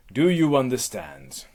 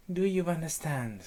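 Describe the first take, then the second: First: Loud, demanding question; imperious and forceful; stern Hera. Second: High helpless repeat; echoing nymph. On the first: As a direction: demand an answer as an angry goddess. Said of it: "back to Hera". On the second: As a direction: parrot it back in a high voice. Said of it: "you will repeat the last words". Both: Acted.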